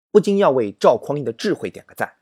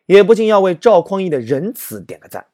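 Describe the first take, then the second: First: Said in the usual way. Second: "不禁" said higher and louder the second time round; emphatic repeat. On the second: Shown as a demonstration. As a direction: build on the first line with more force. (第二遍更响亮更强调地说"不禁")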